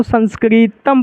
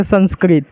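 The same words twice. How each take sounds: First: संस्कृतम with the final म clearly sounded; correct reading. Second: Said in the usual way. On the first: Shown as a demonstration. Teacher correcting students' common mistake, final म clear. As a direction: read it as संस्कृतम, not संस्कृत. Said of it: "इसको संस्कृतम पढ़ना है". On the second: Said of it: "इसको संस्कृत नहीं पढ़ना है".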